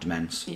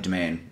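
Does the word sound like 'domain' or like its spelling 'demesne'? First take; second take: demesne; domain. First: The word sounds the way it is spelled. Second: The word sounds like 'domain'. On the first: The speaker calls it wrong. "not Demesne" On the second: The speaker calls it right. "the Malahide Domain"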